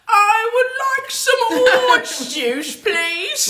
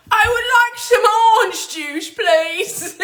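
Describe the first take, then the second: First: High, slow mock-English lady, laughing through it; posh English accent. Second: Ape a proper English woman ordering juice; posh English accent. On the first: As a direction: ape a proper English woman ordering juice. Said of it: "I don't even know what accent that is". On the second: Retold or imitated. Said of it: "it just seemed very, like, proper".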